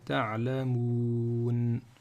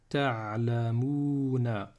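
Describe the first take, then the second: First: The word ends on 'n' with no final vowel. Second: The word ends with a final vowel after 'n'.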